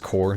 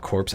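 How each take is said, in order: First: The word ends with no 's' sound. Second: The word ends with a 'ps' sound. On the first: The speaker calls it right. "it's pronounced core" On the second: The speaker calls it wrong. "not corpse"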